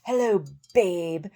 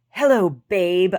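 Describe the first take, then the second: First: Slow, drawn-out, put-on creep voice; mock sleazy greeting. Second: Slow, much louder, drawn-out come-on; mock sleazy greeting. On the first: Repeating the scammer's pickup line in a mock creep voice. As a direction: drawl it like a cheesy flirt. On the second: Mocking the fake Bogut's pickup line, slow and drawn out. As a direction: ham up the creep's pickup line. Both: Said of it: "he was like".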